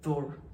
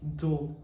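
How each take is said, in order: First: The vowel is kept short, American style. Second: The vowel is drawn out long, British style. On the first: "in American accent, it's kind of shorter" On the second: "in British accent, they do longer, like door"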